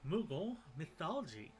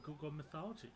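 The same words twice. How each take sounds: First: "Moogle" said deliberately, stressed and a little louder; careful correction. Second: "Google" said in place of "Moogle", a quick unnoticed flub; slip of the tongue. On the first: Reader fixing the name after tripping on it, deliberate stress. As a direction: land hard on "Moogle" to fix the flub. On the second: Reader tripping over the creature's name, casual slip. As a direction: rattle off "Google mythology" as a careless tongue slip. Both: Shown as a demonstration. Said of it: "what is with my mouth today?".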